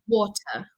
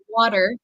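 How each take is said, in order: First: It is said in a British accent. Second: It is said in an American accent. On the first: "British English would be more like water" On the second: "I say water"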